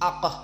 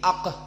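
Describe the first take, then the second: Both takes have the same delivery.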